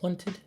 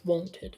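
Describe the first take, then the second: First: The first vowel is a relaxed, neutral schwa. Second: The first vowel is a rounded oh sound. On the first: "with the a lazy vowel" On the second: "or it can be the O noise"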